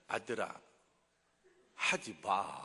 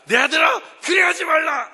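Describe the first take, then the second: First: It is said in a calm, slow tone. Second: It is said in an angry tone.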